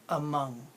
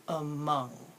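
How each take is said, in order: First: "Among" with a weak schwa "a"; model word. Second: "Among" drawn out, "a" relaxed and "mong" clear; slow model. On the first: Teacher modelling a word for students, lazy first syllable. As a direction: say "Among" with the "a" barely there. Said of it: "say the word among". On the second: Teacher slowing down a word for students, deliberate "Among". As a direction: say "Among" slowly, syllable by syllable. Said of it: "Say it slow". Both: Shown as a demonstration.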